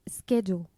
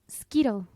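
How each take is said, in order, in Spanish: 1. Se pronuncia como 'schedule'. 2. Se pronuncia como 'skittle'. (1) "Ni siquiera sé si la estoy pronunciando bien ahorita o no" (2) "la pronuncié como Skittle"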